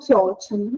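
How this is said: The phrase sounds weary and exasperated. One more bad thing has happened. "em tom de ai meu Deus, que tragédia, mais uma coisa"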